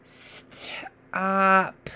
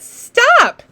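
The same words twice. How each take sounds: First: "Stop" stretched out soft in one breath; slow slide. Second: "Stop" said short, higher and louder; quick word. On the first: Teacher modelling slow blending, drawn out softly. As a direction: slowly slide the sounds of "Stop" together. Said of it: "slide all the way to the end". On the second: Teacher cheering the child's answer, bright and quick. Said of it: "Yeah, you're right". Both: Shown as a demonstration.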